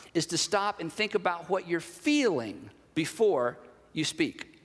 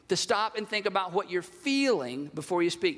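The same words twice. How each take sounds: First: Measured delivery with weight on "feeling" and a drop on "speak"; slow, deliberate emphasis. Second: Said in the usual way. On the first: Real, not acted. Preacher laying out the first step of the exercise, slow and deliberate. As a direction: spell it out slowly, pausing before "you speak". Key step spelled out slowly.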